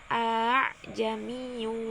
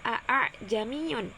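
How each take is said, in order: First: The second hamzah is softened and eased. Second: The second hamzah is pronounced fully and clearly. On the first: This follows the special tashil reading. "bunyi hamzah yang kedua diringankan menjadi" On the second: This follows the original written form. "Apabila mengikuti kalimat asli, maka seharusnya cara membacanya"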